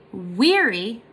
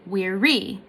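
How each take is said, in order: First: "weary" with the first syllable drawn out and strong; stress on first syllable. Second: "weary" with the weight moved onto the final REE; stress on second syllable. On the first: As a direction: lean on the WEA of "weary", let the end drop. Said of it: "two different ways you can say it". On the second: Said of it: "the second one is unstressed". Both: Shown as a demonstration.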